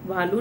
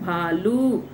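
First: The final u vowel is said short. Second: The final u vowel is said long. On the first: The speaker calls it wrong. "भालू नहीं होता है" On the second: The speaker calls it right. "क्या होता है भालू"

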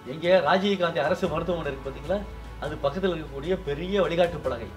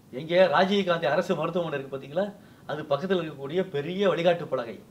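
The two takes are said the same way.

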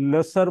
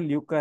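First: The word is said like 'lasar'. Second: The word is said like 'lyookar'. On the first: The speaker calls it wrong. "मैं इसको लसर बोलूं क्या बोलूं" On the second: The speaker calls it right. "तो देखा ल्यूकर है"

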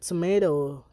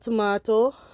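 First: It is said in an American accent. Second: It is said in a Trinidadian accent. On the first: "America say tomato" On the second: "Trinidad say tomato"

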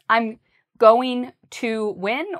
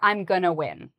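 First: Going to is said in full, two clear words. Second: Going to is reduced to a quick gonna.

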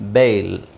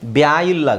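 First: The vowel is one long ay sound, bayl. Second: The vowel splits into two syllables, bya-il. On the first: "ಬೇಲನ್ನ ಸಾಮಾನ್ಯವಾಗಿ ಬೇಲ್ ಅಂತ ಹೇಳ್ತಾರೆ" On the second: "ಅದನ್ನು ಆ ಥರ pronounce ಮಾಡೋದು ತಪ್ಪು"

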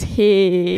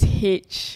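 First: It sounds like the greeting 'hey'. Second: It sounds like the English letter H. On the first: The speaker calls it right. "so it's actually pronounced as hey" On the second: The speaker calls it wrong. "I heard you guys pronounce this as H"

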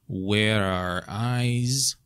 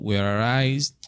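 First: The phrase is said more slowly. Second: The phrase is said quickly.

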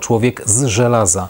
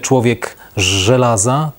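First: The z and ż are said as distinct sounds. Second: The z and ż merge into one sound. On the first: The speaker calls it right. "Różnicujemy z i ży" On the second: The speaker calls it wrong. "Nie mówimy człowiek z żelaza"

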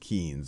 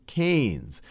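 First: The vowel sounds like the one in 'key'. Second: The vowel sounds like the one in 'cane'. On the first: The speaker calls it wrong. "I often mispronounce him as Keynes because that's how it's spelled" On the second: The speaker calls it right. "but it's John Maynard Keynes"

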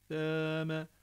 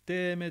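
First: The vowel sits between a and e. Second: The vowel sounds like a clear e. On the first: The speaker calls it right. "A E arası" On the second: The speaker calls it wrong. "Deme de değil"

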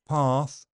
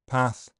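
First: The vowel is a long, open back a. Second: The vowel is a short front a.

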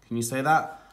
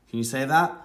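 No difference in how they are said.

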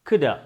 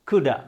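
No difference in how they are said.

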